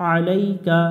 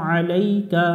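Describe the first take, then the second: Both takes have the same delivery.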